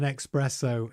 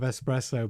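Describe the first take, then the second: First: The word begins with an 'ex' sound. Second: The word begins with an 'es' sound. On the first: The speaker calls it wrong. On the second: The speaker calls it right.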